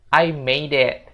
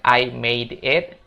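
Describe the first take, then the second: First: The words are linked together smoothly. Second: The words are said separately, not linked. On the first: The speaker calls it right. "tapi disambung ya" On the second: The speaker calls it wrong. "bukan I made it"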